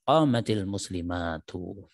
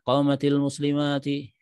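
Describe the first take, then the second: First: The last word ends with a 'u' vowel. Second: The last word ends with an 'i' vowel. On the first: The speaker calls it right. "yang betul" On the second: The speaker calls it wrong. "dengan muslimatnya di kasrah. Fahadha khata'un, maka ini juga salah"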